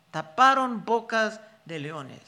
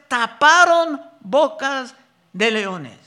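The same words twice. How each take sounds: First: Said in the usual way. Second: "taparon bocas de leones" read slow and louder, weight on "taparon"; slow emphatic reading. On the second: Shown as a demonstration. Preacher reading the verse to the congregation, slow and emphatic. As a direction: lean hard on "taparon" and draw it out.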